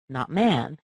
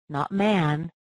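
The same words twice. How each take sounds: Both takes have the same delivery.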